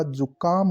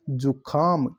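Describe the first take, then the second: First: "जुकाम" with plain k; no breath on the k of "जुकाम"; correct pronunciation. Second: "जुखाम" with aspirated kh; breathy kh in the middle of "जुखाम"; wrong pronunciation. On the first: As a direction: say "जुकाम" as ju-kaam. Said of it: "का आएगा". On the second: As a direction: say "जुखाम" as ju-khaam. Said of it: "खा नहीं होता". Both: Shown as a demonstration.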